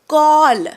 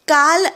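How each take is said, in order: First: The vowel is a rounded 'aw'. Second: The vowel is an open, unrounded 'ah'. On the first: The speaker calls it right. "म्हणा ऑ" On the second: The speaker calls it wrong. "काल असं नाही"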